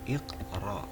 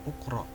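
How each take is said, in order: First: The word begins with an 'i' vowel. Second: The word begins with a 'u' vowel. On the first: The speaker calls it right. "hamzatul amrnya itu berharokat kasrah" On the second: The speaker calls it wrong. "bukan uqra"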